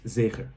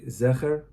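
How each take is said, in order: First: The first vowel is an 'ay' as in 'day'. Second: The first vowel is a short 'e' as in 'bed'. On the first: "with a tzere, which is Zecher" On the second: "Zecher with a segel"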